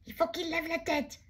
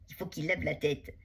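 First: Much higher, urgent yell; shout. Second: Said in the usual way. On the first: Acted. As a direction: yell the plan to your friend. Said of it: "crie Billy". (crié, aigu et pressant)

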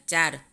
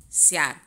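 First: Said in the usual way. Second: સ્યાર with "sy" for "ch"; ch turned sibilant. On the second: Shown as a demonstration. Teacher showing students the dialect ચ, said as સ્યાર. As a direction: soften ચ into a hissed sibilant, સ્યાર. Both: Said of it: "ચનો શ".

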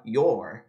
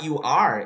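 First: "your" as one lower syllable; joined word. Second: "you are" as two clear words; separate words. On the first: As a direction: merge "you are" into "your". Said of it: "ele fala". ("your" numa sílaba só, grave) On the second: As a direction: keep "you" apart from "are". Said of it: "Em vez de falar". ("you are" sem juntar) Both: Shown as a demonstration.

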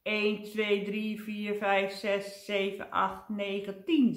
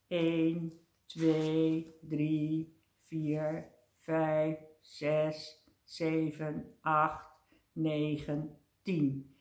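First: Hurried count to ten; brisk calming count. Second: Measured numbers with a gap after each; even, deliberate count to ten; slow calming count. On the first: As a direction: count briskly to get over a fright. Counts quickly to calm down. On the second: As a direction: count steadily to settle your nerves. Counts slowly to calm down. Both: A narrator's reading.

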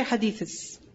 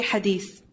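First: "hadiths" with an added English -iz syllable; wrong plural. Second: Said in the usual way. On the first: Shown as a demonstration. Teacher shows students what not to say, "hadiths" ending in -iz. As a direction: end "hadiths" on an extra "iz" after the th. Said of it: "Don't say hadiths". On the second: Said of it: "one hadith, say hadith".

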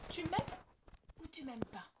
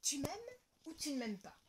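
First: Rising then falling question; lilting playful ask; teasing question. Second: Higher title announcement; storybook title voice; title read. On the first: Shown as a demonstration. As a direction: tease the title question. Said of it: "une question très, très importante". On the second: A narrator's reading. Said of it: "je mets mes lunettes et je commence".

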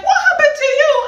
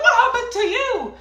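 First: High, loud shocked shriek; screamed. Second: Laughing scream. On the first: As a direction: shriek it at a long-lost friend. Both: Retold or imitated. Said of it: "we screamed".

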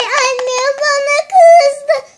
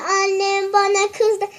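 First: Loud, slow, higher crying complaint; crying "kızdı" stretched slowly; fake crying. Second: Said in the usual way. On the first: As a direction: wail it out like a tantrum. Same complaint cried first time.

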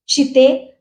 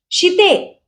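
First: Said in the usual way. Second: शिते called high and sharp; shouting her name. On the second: Acted. Visu shouts at Shitu while hitting her back. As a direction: yell शिते as you strike. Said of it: "विसू ओरडला".

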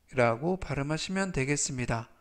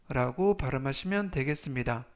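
Both takes have the same delivery.

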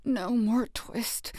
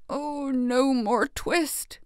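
First: Slow, sleep-talking mumble, a touch softer; slow delirious tailor mumbling in his sleep; feverish mumble. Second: Slow, higher pleading mumble with a rise; slow delirious tailor pleading in his sleep. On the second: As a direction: beg it in a fever dream. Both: A narrator's reading. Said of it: "still in his dreams he mumbled".

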